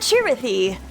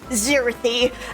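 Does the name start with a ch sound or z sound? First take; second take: ch sound; z sound. First: The name begins with a ch sound. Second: The name begins with a z sound. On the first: The speaker calls it right. "pronounced like Chi" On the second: The speaker calls it wrong. "text-to-speech reads out my name, because it says Zirithy"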